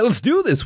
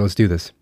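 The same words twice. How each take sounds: First: It is said loudly, with high energy. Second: It is said flatly, with low energy. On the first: The speaker calls it right. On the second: The speaker calls it wrong.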